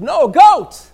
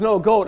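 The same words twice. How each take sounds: First: Loud, high shout on "goat"; exasperated correction. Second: GOAT said louder and higher; firm correction. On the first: Caller corrects a repeated mishearing, exasperated shout. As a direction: shout it to get through to a poor listener. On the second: Caller corrects a mishearing, firm stress on "goat". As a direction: correct them firmly on "goat". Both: Acted.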